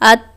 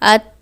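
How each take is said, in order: First: The final t ends with no escaping air. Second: The final t ends with a light puff of air. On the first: The letter is not fully pronounced. The speaker calls it wrong. "जब हम हवा बाहर नहीं निकालेंगे" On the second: The letter is fully pronounced. The speaker calls it right. "इसमें सिफ्ते हम्स लाएंगे"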